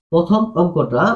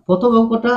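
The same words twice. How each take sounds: First: Said in the usual way. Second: প্রথম said higher, stressed; teacher stressing প্রথম for the class; emphatic repeat. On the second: Shown as a demonstration. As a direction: lift প্রথম to drive the point home. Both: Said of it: "teacher repeats for emphasis".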